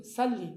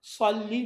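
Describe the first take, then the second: First: Said in the usual way. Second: "صلی" with a thick, emphatic s; heavy Arabic sad. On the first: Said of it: "سواد کا تلفظ سین جیسا". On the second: Shown as a demonstration. Teacher shows what Urdu speakers avoid, heavy sad. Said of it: "صلی نہیں کہتا ہے".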